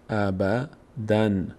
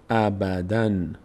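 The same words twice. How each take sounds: First: The word ends with an n sound. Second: The same.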